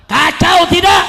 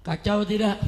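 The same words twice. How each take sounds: First: High, very loud question to the crowd; rallying shout. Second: Said in the usual way. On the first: Real, not acted. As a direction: shout it to demand an answer. Repeats question to rouse crowd.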